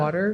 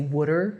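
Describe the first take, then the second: First: It is said in a general American accent. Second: It is said in a Philadelphia accent.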